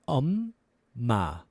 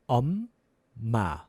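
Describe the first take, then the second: Both takes have the same delivery.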